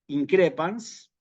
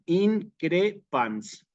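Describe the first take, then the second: First: The stress is on the second syllable. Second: The stress is on the first syllable. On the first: The speaker calls it right. "Allí va propiamente el, el acento" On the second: The speaker calls it wrong. "aunque aquí lo ponga eh, en la, en la antepenúltima"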